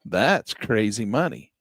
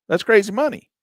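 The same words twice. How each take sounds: First: Said in the usual way. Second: That's crazy money, said higher and louder; excited exclamation. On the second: Shown as a demonstration. Vlogger hypes returns to viewers, higher, louder exclamation. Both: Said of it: "repeated with rising emphasis".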